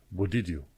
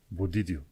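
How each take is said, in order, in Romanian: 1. Cuvintele se leagă între ele, cu sunete unite. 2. Cuvintele se leagă între ele, cu sunete unite.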